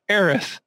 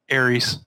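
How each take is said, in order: First: The name ends with a th sound. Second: The name ends with an s sound. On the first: The speaker calls it right. "not a TH" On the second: The speaker calls it wrong. "it ended with an S, not a TH"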